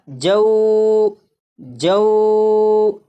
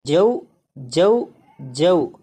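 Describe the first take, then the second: First: جو drawn out long and held; stretched wrong way. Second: جو short and smooth, the vowel not held; unstretched right way. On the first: Teacher showing students the wrong stretched جو, held long. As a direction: hold the vowel of جو far too long. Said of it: "اگر اسے کھینچ کر پڑھیں تو یہ اس طرح پڑھا جائے گا". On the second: Teacher showing students the correct short جو. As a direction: say جو gently without drawing it out. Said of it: "بغیر کھینچے پڑھیں گے". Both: Shown as a demonstration.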